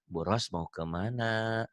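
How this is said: The question is asked in a soft, gentle tone. The speaker is being polite. "Berbahasanya lembut"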